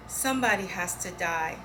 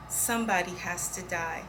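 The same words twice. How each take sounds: The two takes are said the same way.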